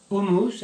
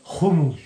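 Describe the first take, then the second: First: Said in the usual way. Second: HUMMUS said loud with a throaty kh at the start; "hummus" the Israeli way, guttural kh for the h; Israeli pronunciation. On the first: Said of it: "my friends say hummus". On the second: Shown as a demonstration. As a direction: push out "hummus" as khu-MUS, rasping the first sound. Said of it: "and I say hummus".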